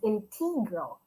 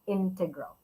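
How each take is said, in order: First: It is said the way many Filipinos say it. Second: It is said the standard English way. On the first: The speaker calls it wrong. "I always thought it was integral" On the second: The speaker calls it right. "the correct pronunciation is integral"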